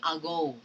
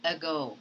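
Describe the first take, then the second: First: "ago" starting with a full ah; the wrong way, stressed a. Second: "ago" starting with a short uh; weak schwa in "ago". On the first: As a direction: mistaken full vowel. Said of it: "You do not say ago". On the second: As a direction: correct schwa. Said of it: "you have to simply say". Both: Shown as a demonstration.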